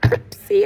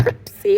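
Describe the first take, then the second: First: It is said in a Caribbean accent. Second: The same.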